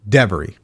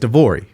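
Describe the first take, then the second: First: The name is said with an E sound after V. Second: The name is said with an O sound after V. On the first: This is how other people say the name. The speaker calls it wrong. "every time I meet someone, you know what they say?" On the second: This is the name as its owner says it. The speaker calls it right. "My name is Devori"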